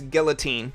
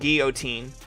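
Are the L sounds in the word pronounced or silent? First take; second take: pronounced; silent. First: The L sounds are clearly pronounced. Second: The L sounds are silent, French style. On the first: "the L's in guillotine is pronounced ill" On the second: "rather than the French guillotine"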